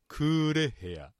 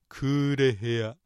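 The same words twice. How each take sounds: First: The syllable 're' carries the accent. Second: The syllable 're' carries no accent. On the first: "レにアクセントを置いてクーレヘア" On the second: It means a dark room. "レ強くしないでクーレヘア"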